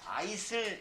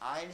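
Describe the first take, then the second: First: The word is said with an s sound. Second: The word is said without an s sound. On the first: The speaker calls it wrong. "이거 아니고" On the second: The speaker calls it right. "요 S 발음을 안 해"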